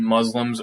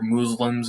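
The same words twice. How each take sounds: First: The word is said in a plain pronunciation. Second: The word is said in an imitated pronunciation.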